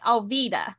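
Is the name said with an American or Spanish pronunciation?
Spanish. The name is said with a Spanish pronunciation.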